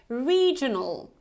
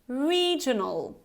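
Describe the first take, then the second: No difference in how they are said.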